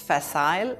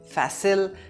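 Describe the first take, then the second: First: The word is pronounced the British way. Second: The word is pronounced the American way. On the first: "The British pronounce it as facile" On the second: "the Americans say facile"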